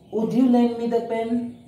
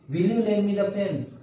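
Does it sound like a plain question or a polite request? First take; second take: polite request; plain question. First: It sounds like a gentle, polite request. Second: It sounds like a plain, direct question.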